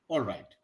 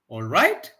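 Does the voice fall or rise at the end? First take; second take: fall; rise. First: The pitch falls at the end. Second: The pitch rises at the end. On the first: The speaker agrees to do what was asked. "so this tone" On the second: The speaker is asking whether everything is fine. "it should be rising tone"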